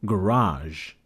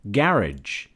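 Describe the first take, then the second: First: "garage" stressed on the second syllable, ending in a soft zh; second variant of garage. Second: "Garage" stressed on the first syllable, ending -ij; first variant of garage. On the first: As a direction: say "garage" as guh-RAHZH, drawn out slowly. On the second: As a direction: say "Garage" as GARR-idge. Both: Shown as a demonstration. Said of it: "or garage?".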